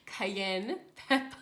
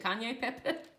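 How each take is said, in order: First: The first word sounds like cayenne. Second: The first word sounds like Kanye. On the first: The speaker calls it right. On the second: The speaker calls it wrong. "I've called that Kanye before"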